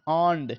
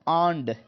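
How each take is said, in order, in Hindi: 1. पहला स्वर 'ah' ध्वनि है। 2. पहला स्वर 'ah' ध्वनि है।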